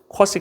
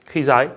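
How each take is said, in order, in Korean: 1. 가운데 자음은 무성 s 소리예요. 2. 두 모음은 이중모음이에요, kwai와 zai.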